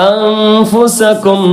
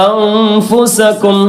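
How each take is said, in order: Both takes have the same delivery.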